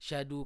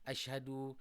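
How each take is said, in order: First: The opening vowel is dropped and sounds rearranged. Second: The word begins with its opening vowel sound. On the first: The speaker calls it wrong. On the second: The speaker calls it right.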